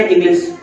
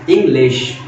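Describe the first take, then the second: First: "English" squashed into one quick word; hasty, unseparated "English"; wrongly rushed. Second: "English" in two measured beats; evenly timed "English"; properly balanced syllables. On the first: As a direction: run "English" together with no gap. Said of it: "अब ऐसा नहीं". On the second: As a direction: give इंग and लिश each their time. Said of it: "equaliser आप डालोगे तो आपको बोलना पड़ेगा". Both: Shown as a demonstration.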